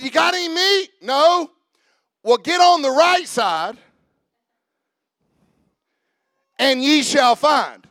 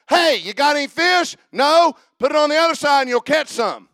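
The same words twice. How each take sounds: First: Jesus's way of wording. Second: Said in the usual way. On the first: Shown as a demonstration. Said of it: "Who talks like that? Jesus". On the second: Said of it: "normal language would be like this".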